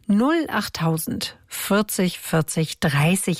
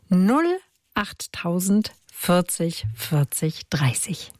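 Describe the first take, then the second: First: It is said at normal speed. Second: It is said very slowly.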